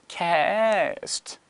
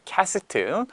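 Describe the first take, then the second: First: It is said English-style ending on a bare t. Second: It is said Korean-style with an added final vowel. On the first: The speaker calls it right. "이렇게 발음하면 되는데" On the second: The speaker calls it wrong. "물론 발음이 캐스트는 아니에요"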